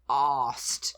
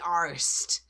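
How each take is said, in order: First: It is said in a British accent. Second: It is said in an American accent. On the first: The speaker calls it right. "that's not how they pronounce it, you know. It's arsed" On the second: The speaker calls it wrong. "And that's the way they say it"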